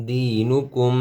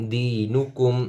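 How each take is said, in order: Both takes have the same delivery.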